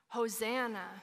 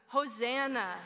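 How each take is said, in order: First: The word is said plainly, without strong feeling. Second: The word is said with strong, desperate feeling. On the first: "Say it with me" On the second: "say it again with me and really mean it"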